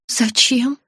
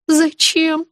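First: Short, guarded question, rising; wary. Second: High, small, horrified question; puzzled dread. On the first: Patient suspicious of friend's order, wary. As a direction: ask with mild suspicion. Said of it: "насторожилась я". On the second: Patient dreading the drive, puzzled and afraid. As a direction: ask in understated dread. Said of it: "Не поняла я, испытывая ужас". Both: A narrator's reading.

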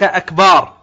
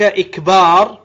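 First: "أكبار" starting on a, with a long "baar"; fatha on hamza. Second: "إكبار" starting on i, with a long "baar"; kasra on hamza. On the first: Teacher contrasting the second wrong form, fatha on hamza. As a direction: open "أكبار" with a short a and stretch the end. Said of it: "أكبار بفتحها". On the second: Teacher setting two wrong forms side by side, kasra on hamza. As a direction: open "إكبار" with a short i and stretch the end. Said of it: "بكسر الهمزة". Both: Shown as a demonstration.

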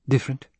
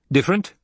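First: Said in the usual way. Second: Higher, bitter echoed question. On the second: A narrator's reading. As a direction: throw the word DIFFERENT back with a sharp rise. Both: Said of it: "She heard the bitterness in his tone".

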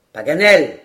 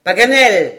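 First: Loud call up into the tree. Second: Second, higher and louder shout; louder call. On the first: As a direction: hail him from below. (appel lancé vers l'arbre) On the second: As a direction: call again, more urgent. (appel plus fort et plus aigu) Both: A narrator's reading. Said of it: "s'écria Glenarvan".

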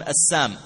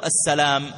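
First: "السام" without the L, as as-saam; long aa straight into m in "السام"; dropped-L greeting. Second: Said in the usual way. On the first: Shown as a demonstration. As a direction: say "السام" with the lam left out. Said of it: "وإنما يقولون". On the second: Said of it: "لم تقل له".

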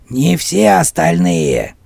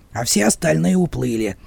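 First: "все" drawn out slowly and weighted; stress on все. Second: Said in the usual way. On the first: Acted. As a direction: lean hard on "все", slow and deliberate. One-Eye cuts in, correcting.

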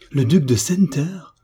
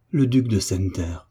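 First: High, astonished echo of the name; stupefied exclamation. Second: Said in the usual way. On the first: A narrator's reading. Friend learns who the suitor really is, stupefied exclamation. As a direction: repeat it as a shocked, rising question. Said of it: "frappée de stupeur et d'effroi".

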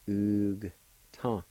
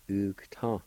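First: Long "Oog" with the G closing it, gap, "ta"; syllable by syllable. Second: Said in the usual way. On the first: Shown as a demonstration. Teacher repeating the word for flax, syllable by syllable. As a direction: separate Oog from ta. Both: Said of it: "pronounce the G sound with a U like this".

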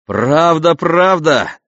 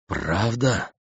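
First: Loud, high delighted exclamation; excited. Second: Soft stunned question; dumbfounded. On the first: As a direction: burst out with joy. Cadmus delighted with cow. (радостный возглас) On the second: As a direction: ask in disbelief. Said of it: "слегка остолбеневший Пелагон". (ошеломлённый вопрос) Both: A narrator's reading.

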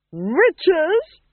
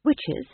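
First: High, loud rising cry; shrill alarm. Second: Said in the usual way. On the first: A narrator's reading. Duchess reacting to news of witches, loud high cry. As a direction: screech the word in outrage.

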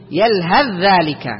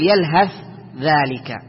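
First: Slow "يلهث ذلك", joined on one doubled voiced ذ; ث merged into ذ. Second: "يلهث ذلك" with an audible ث, break, then ذلك; mistaken unmerged ث. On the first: Teacher corrects the common mistake, ث becomes ذ. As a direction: absorb the ث of يلهث into ذلك without a break. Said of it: "وإنما تقول". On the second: Teacher shows a common mistake, ث left unmerged. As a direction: separate the hissed ث of يلهث from ذلك. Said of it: "ما تقول". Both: Shown as a demonstration.

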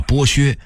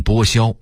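First: Said in the usual way. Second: 剥削 misread as bōxiāo; 剥削 with an xiāo ending; workers' mispronunciation. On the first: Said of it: "他们一直把剥削念成". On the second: Shown as a demonstration. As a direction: say 削 in 剥削 as xiāo, not xuē. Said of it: "念成剥削".

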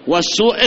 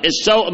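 First: نطق "والسوء" بضم السين ومدّ الواو: سُوء; السُّوء بضم السين. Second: نطق "السوء" بفتح السين: سَوء; قل "السوء" بفتح السين والواو ساكنة; السَّوء بفتح السين. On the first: (انطق "والسوء" وَالسُّوء بالضمة على السين) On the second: (انطق "السوء" سَوْء بفتح السين) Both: Shown as a demonstration. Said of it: "السوء بضم السين".

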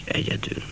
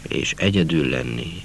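First: Whispered echo. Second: Said in the usual way. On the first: A narrator's reading. Narrator longing to be alone, whispering egyedül. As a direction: whisper egyedül, breathy and very soft.

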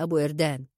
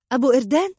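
First: Said in the usual way. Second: "أبو إردان" thrown back as a high, loud rising question; "أبو إردان" as an indignant, rising echo; incredulous echo. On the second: A narrator's reading. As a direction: repeat "أبو إردان" in disbelief, pitch climbing at the end. Indignant echo of Salem's suggestion.

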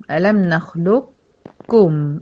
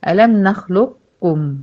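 First: ألم نخلقكم drawn out very slowly, the قاف fully merged into a doubled كاف; very slow recitation. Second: Slow, drawn-out Quranic recitation of ألم نخلقكم. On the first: Teacher reciting the verse very slowly for the class. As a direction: stretch نخلقكم as "nakhlukkum" with a long doubled k. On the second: Teacher demonstrating the verse slowly to her students. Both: Shown as a demonstration. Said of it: "عشان ننطقها هنقول".

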